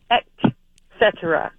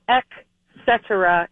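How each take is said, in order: First: The first word ends with a T sound. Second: The first word ends with a K sound. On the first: The speaker calls it right. "It's E-T, not E-K" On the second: The speaker calls it wrong. "it's not et cetera"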